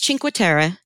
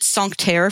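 First: The name is said with an Italian pronunciation. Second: The name is said with a French pronunciation. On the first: The speaker calls it right. "I think it's Cinque Terre" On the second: The speaker calls it wrong. "I called it Sancterre forever because I assumed it was okay. French"

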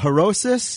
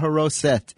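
First: The word ends with an s sound. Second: The word ends with a t sound. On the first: This is the older form learned in childhood. "they taught me a lot of words that ended with an S sound" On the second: This is the form used nowadays. "now they end in a T sound"

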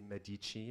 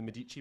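First: It is pronounced the posh, refined way. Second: It is pronounced the ordinary, everyday way.

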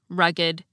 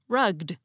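First: The ed ending is its own extra syllable. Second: The ed ending is only a final consonant. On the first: "had the same unusual pronunciation of the suffix ed" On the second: "pronounced like most English words ending in ed"

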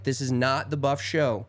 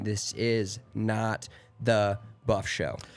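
First: The phrase is said at a normal pace. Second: The phrase is said slowly and deliberately.

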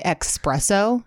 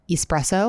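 First: The word begins with an 'ex' sound. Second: The word begins with an 'es' sound. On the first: The speaker calls it wrong. "And I say espresso" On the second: The speaker calls it right. "instead of espresso"

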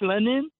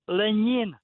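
First: The n sounds hard, not palatalized. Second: The n sounds soft, like Spanish ñ. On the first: The speaker calls it wrong. "it's not" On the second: The speaker calls it right.

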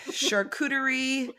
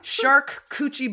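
First: It is said with the ending koo-tuh-ree. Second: It is said like the words shark coochie. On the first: The speaker calls it right. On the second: The speaker calls it wrong.

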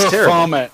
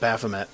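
First: The ending rhymes with 'vomit'. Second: The ending does not rhyme with 'vomit'. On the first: The speaker calls it wrong. "I was saying it like vomit" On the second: The speaker calls it right. "which is the way to pronounce that"

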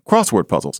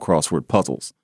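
First: The stress falls on cross in crossword. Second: The stress falls on word in crossword. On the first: This is the way it is said today. "as opposed to crossword puzzles" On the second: This is the older way of saying it. "she went through her life calling them crossword puzzles"

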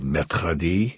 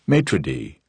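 First: It is pronounced in a fancy French way. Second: It is pronounced in a plain American way. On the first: The speaker sounds sophisticated and distant. "you get fancy and say maître d'" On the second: The speaker sounds ordinary and relatable. "just say maître d' and just democratize yourself"

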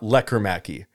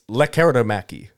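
First: The name is said without the extra vowel. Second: The name is said with an extra vowel. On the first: The speaker calls it wrong. "it's not Lekkomäki" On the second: The speaker calls it right. "There's like an I in there that we weren't pronouncing before"

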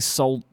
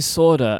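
First: The word is said with an L sound. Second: The word is said without an L sound. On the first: "Americans say sold. They pronounce the L" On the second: "I say solder ... They pronounce the L and I don't"

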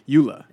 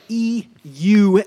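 First: The word is said quickly and loosely. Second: The word is said slowly, each syllable articulated. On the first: The speaker knows the term well. "we would call it that a EULA" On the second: The speaker has never said the term before. "Like, you know, carefully"

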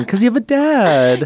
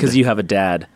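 First: The tone sounds warm and friendly. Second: The tone sounds cold and insulting. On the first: The speaker calls it right. "Let me try that again" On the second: The speaker calls it wrong. "Why did that sound so insulting"

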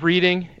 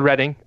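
First: The name is said the way Ohioans would. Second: The name is said the local British way. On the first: "also known as Reading if you are from Ohio" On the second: "It's called Reading"

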